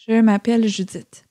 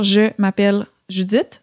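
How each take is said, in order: First: The words flow together on continuous air. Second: The words are said with breaks between them. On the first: "on va les fusionner" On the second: "comme de séparer les mots entre eux"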